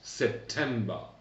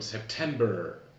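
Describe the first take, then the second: First: The final R is not pronounced. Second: The final R is clearly pronounced. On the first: "pas en Angleterre. Donc moi je vous enseigne l'anglais britannique" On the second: "les Américains prononceront quelque chose comme September. On prononce le R à la fin d'un mot aux États-Unis"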